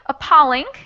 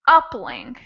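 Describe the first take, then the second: First: The stress is on the second syllable. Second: The stress is on the first syllable. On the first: The speaker calls it right. "the second way would be appalling" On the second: The speaker calls it wrong. "the first syllable was stressed"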